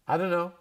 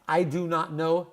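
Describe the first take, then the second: First: The words are reduced and run together. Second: Every word is said separately and fully. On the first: The speaker calls it right. "That's how we say it" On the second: The speaker calls it wrong. "no one says that"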